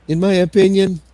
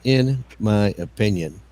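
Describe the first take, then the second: First: Higher and louder mock echo; teasing higher-pitched parody; high mocking repeat. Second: Drawn out, very slow mimicry; slow parody of a friend's phrase; slow mocking repeat. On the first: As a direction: squeak the phrase back to tease him. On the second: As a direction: stretch every word out to mock it. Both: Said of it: "Emo repeated it".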